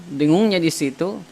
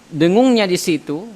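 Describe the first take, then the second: The two takes are said the same way.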